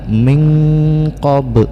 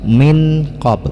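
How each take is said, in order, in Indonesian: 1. Nun disembunyikan menjadi sengau yang samar. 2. Nun dibaca penuh dan jelas. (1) "yang benar min qab" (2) "Kalau tidak kita ikhfakan maka akan berbunyi min qab"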